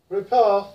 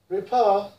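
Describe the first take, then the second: Both takes have the same delivery.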